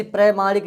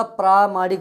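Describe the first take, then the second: First: प्रमाणिक with short "pra"; wrong short vowel. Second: प्रामाणिक with long "praa"; long first vowel. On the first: Teacher showing the mistake, short-vowel प्रमाणिक. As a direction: say प्रमाणिक with a brief first vowel. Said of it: "नहीं होता". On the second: Teacher correcting the mistake, long-vowel प्रामाणिक. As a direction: say प्रामाणिक, holding the opening praa. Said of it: "होता है". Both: Shown as a demonstration.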